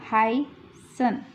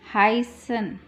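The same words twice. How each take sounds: First: हाइसन drawn out very slowly with a clear ह; slow demo. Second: Said in the usual way. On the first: Shown as a demonstration. Teacher slowly modelling हाइसन for the class. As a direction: stretch हाइसन slowly, opening on ह. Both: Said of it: "हा की sound ह है".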